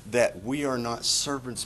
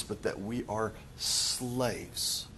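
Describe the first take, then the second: First: Said in the usual way. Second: "slaves" said slow and soft, weight on "are"; stress on slaves. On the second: Shown as a demonstration. Contrasting servants against slaves.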